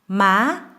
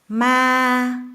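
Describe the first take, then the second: First: The pitch is high and rises. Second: The pitch stays flat and level. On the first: It means mother. "with rising high tone" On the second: It means ghost. "flat, level tone"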